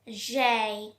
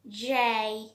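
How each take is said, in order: No difference in how they are said.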